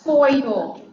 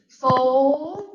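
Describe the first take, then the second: First: The word is said with a vowel like boil. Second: The word is said with a vowel like soul. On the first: The speaker calls it right. "that's how you're supposed to pronounce it" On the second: The speaker calls it wrong. "it's very difficult for me to say soil"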